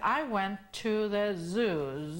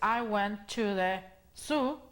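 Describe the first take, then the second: First: Zoo begins with a buzzing z sound. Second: Zoo begins with a hissing s sound. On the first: The speaker calls it right. "van a saber que están hablando del zoológico" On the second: The speaker calls it wrong. "se oye mal"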